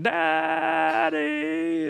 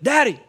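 First: The first vowel is stretched out long. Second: The word is shouted as loudly as possible. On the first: "emphasizes the A sound and she just kind of like drags it out" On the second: "as loud as he can"

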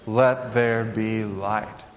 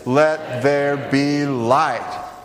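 First: The words are read at an ordinary level. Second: The words are said loudly and with force. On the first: "Will you read that with me?" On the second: "say it with some more conviction"

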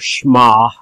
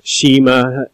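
First: It is said with a Hebrew-style pronunciation. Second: It is said with an English-style pronunciation. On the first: "in Hebrew it's pronounced more Shema" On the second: "English-speaking people say Shema"

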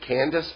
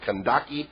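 First: The name ends with an 's' sound. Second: The name ends with a 'kee' sound. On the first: This follows the familiar English form of the name. "I was raised Candace, and that's actually an English name for us" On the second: This follows the original Greek form of the name. "I think the Greek would be more like Kandaki"

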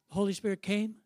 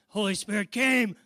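First: It rises at the end like a question. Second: It is said forcefully as an exclamation.

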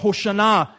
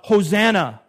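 First: The word is said in its Hebrew form. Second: The word is said in its common English form. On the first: The speaker calls it right. "in the Hebrew, it's more Hoshana" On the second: The speaker calls it wrong. "anytime you hear Hosanna, you correct the person who says that"

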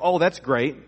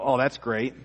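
First: It is said sincerely, with genuine pleasure. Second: It is said sarcastically, meaning the opposite.

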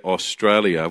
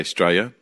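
First: The vowels are all fully pronounced. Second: The vowels are dropped or reduced. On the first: This is not how Australians say it. "we don't say Australia" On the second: This is how Australians say it. "we tend to drop all our vowels"

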